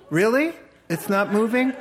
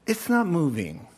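First: Higher, louder sceptical question; mock incredulous. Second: Said in the usual way. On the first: Preacher challenging the congregation's everyday saying, mock incredulous. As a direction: challenge it with a rising, disbelieving question.

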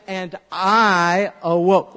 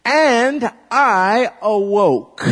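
First: Slow, somewhat louder repeat; leading the repeat; slow recitation. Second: Loud, slow and high; proclaiming the line slowly; slow recitation. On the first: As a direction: say it back slowly. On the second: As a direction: call it out slowly. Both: Shown as a demonstration. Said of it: "And I say".

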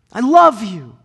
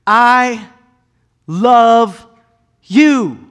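First: High, loud, in one flowing phrase; said once, tenderly and firmly; God speaking. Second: Each word set apart, high and loud; drawn-out, emphatic divine declaration; God speaking. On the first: God to humanity, one steady loving phrase. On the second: God to humanity, slow emphatic words. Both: Acted. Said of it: "God made an emphatic stamp".

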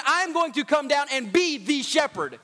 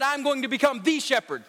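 First: Half-sung preacher's line, falling on shepherd; chanted, intone it like a sermon climax; chanted emphasis. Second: Said in the usual way. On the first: Acted. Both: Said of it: "some of y'all just miss that".

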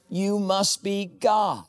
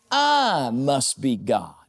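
First: Said in the usual way. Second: "I" leaned on, then a slow falling "God"; stress on I. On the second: Acted. Preacher voicing a smug cat, stress on I. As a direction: hit the word I as the cat. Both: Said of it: "Cat says, "You love me".

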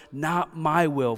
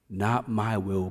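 First: Slow and raised, wrung out in agony; anguished surrender. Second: Calm everyday surrender. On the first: Jesus praying to the Father in agony, slow anguished plea. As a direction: lean into each word like it costs everything. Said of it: "He's saying". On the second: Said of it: "in an everyday life as usual moment". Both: Acted.

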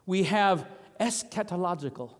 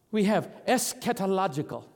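No difference in how they are said.

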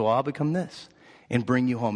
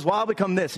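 First: Lightly voiced mother bunny, settling lower. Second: Lightly voiced little bunny, pitched up a touch; little boy bunny. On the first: Mother bunny answers her little boy, calm and lower. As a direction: answer the challenge calmly, dropping in pitch. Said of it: "And she said". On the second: Little bunny taunts his mother, lightly childlike. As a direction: toss it out as a small challenge. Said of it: "And he says".

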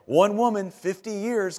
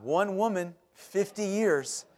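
First: Louder, higher one woman, fifty years; a mock-panicked replay of the brother's line; half-laughing worried repeat; anxious echo. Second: Slow, weighty one woman, fifty years; lightly imitated brother, spacing each word; mock-solemn, years drawn out slow; ominous pronouncement. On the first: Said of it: "all I could think of". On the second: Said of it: "Gee, don't say it like that".

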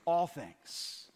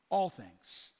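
First: All things answered firmly at normal pitch, stress on All. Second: ALL things, low and soft, stress on All; quiet emphasis. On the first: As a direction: answer the question, punching All. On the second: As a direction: savour All things, almost under the breath. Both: Shown as a demonstration. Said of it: "What things?".

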